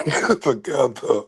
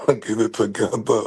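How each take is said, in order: First: Mock-stern get it together; firmer self-command. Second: Trying to sound firm but chuckling; half-laughed get it together; laughing self-command. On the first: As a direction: get it together with stress on it, falling firm. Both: Real, not acted.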